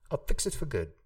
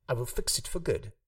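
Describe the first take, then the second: First: Will shrinks to a small swallowed l sound. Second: The word will is pronounced in full. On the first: "ott már csak egy ilyen kis elnyelt löbetű lesz" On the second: "ami régen még will volt"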